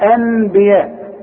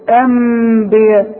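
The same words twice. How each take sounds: First: A clear n sound is pronounced before the b. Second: A full closed m is pronounced before the b. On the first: "ما اقولهاش نون خالص" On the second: "ما اقولهاش مين كامل"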